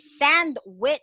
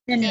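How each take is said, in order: First: The middle sounds are each said in full. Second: The middle sounds merge into one blended sound. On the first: The speaker calls it wrong. "we don't say sandwich" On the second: The speaker calls it right. "but it's"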